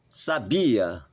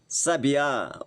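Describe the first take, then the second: First: The stress is on the second syllable. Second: The stress is on the last syllable. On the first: It says someone had knowledge of something. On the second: It names a kind of bird.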